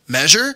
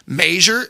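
First: The word is said in a Michigan accent. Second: The word is said in a Pittsburgh accent. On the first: "instead of" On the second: "my Pittsburgh accent"

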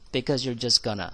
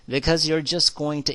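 First: "Going to" is run together as "gonna". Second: Each word of "going to" is said distinctly. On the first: The speaker calls it right. "아마 이 gonna라고 발음을 할 겁니다" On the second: The speaker calls it wrong. "이렇게 또렷하게 얘기하지 않죠?"

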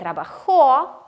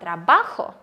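First: The stress is on the last syllable. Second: The stress is on the middle syllable. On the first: It is the past tense. "на кінець" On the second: It is the present tense. "коли наголос не на кінець, це теперішній час"

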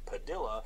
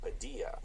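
First: The name is said with an English-style pronunciation. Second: The name is said with a Spanish-style pronunciation. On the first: The name is being mispronounced by someone else. The speaker calls it wrong. "calls him Padilla" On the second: This is how the name should be said. The speaker calls it right. "instead of Padilla"

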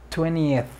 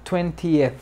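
First: The middle t sound is dropped completely. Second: The middle t sound is clearly pronounced. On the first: This is the usual form nowadays. "se omite completamente la T" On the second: This form is rarely used nowadays. "Algunas personas lo pronunciarán 20th, pero ya casi no se usa"

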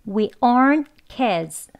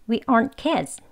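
First: The sentence is said slowly and carefully. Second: The sentence is said quickly and smoothly. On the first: "천천히 해보겠습니다" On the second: "빨리 발음하면"

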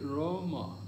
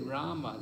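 First: The first vowel is a rounded 'oh' sound. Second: The first vowel is an open 'ah' sound. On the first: "They will say Roma" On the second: "the Chinese people have difficulty to say Rama"

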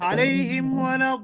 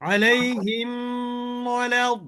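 First: The m is passed quickly without a nasal hold. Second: The m is lingered on with a nasal hold. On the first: The speaker calls it right. "দ্রুত পড়তে হবে।" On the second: The speaker calls it wrong. "এখন আপনি যদি এইভাবে বলেন আলাইহিম ওয়ালা, তাহলে কি গুণ হয়ে গেল না?"

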